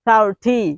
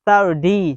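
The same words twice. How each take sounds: First: The middle consonant is a clear t sound. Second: The middle consonant sounds like a soft d. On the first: "basic হচ্ছে thirty" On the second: "American স্টাইলে এখানে হচ্ছে thirty ... টি এর পরিবর্তে এখানে ডি হবে"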